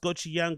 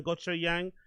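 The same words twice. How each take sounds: First: Gochujang said as "gotchy-yan"; alternative pronunciation. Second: Gochujang said as "gotcho-yang"; alternative pronunciation. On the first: Host guessing at a sauce's name, gochujang as "gotchy-yan". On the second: Host trying another sauce name, gochujang as "gotcho-yang". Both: Shown as a demonstration. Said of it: "I think it's pronounced".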